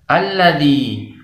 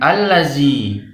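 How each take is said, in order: First: The middle consonant is a soft 'dh' sound. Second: The middle consonant is a buzzing 'z' sound. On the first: The speaker calls it right. "yang benar membacanya alladzi" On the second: The speaker calls it wrong. "bukan allazi"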